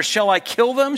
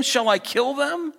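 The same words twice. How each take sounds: First: Quick, higher and louder, urgent; eager king. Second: Repeats it higher and slower, pressing; eager king. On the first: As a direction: blurt it out like a king itching to strike. First asking of the question. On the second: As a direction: savour the question, drawn out and high. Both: Acted.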